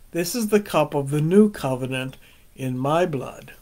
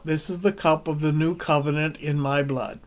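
First: The word new is strongly stressed. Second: The word new carries no special stress.

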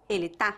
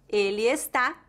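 First: The verb is shortened to one syllable. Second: The verb is said in full with two syllables.

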